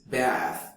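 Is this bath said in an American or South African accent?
South African. A South African accent, with a longer vowel. "In South African English is bath. It makes a little longer sound in the vowel"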